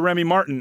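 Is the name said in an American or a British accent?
American. It is said in an American accent.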